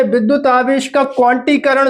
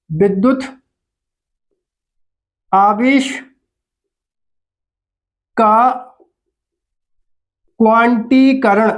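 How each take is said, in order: First: Said in the usual way. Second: "विद्युत … आवेश … का … क्वांटीकरण" with long pauses between words; word-by-word dictation. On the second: Shown as a demonstration. Teacher dictating "विद्युत आवेश का क्वांटीकरण" to pupils, long gaps between words.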